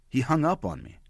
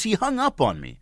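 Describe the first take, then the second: First: Said in the usual way. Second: Much higher-pitched disbelief; incredulous repeat. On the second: Real, not acted. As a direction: pitch it way up, as if asking them to believe it.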